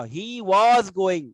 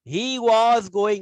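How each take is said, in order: First: Was drawn out very slowly and louder; he was going, was held long; stress on was. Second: Was drawn out very slowly, higher and louder; he was going, with was pulled long and loud; stress on was. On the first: Teacher repeats changed verb form. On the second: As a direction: lean hard on was, slowly. Teacher stresses changed verb form. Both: Shown as a demonstration.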